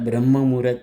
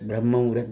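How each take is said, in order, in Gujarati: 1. પહેલો શબ્દ ટૂંકો છે, 'brahm' તરીકે બોલાય છે. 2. પહેલો શબ્દ ટૂંકો છે, 'brahm' તરીકે બોલાય છે.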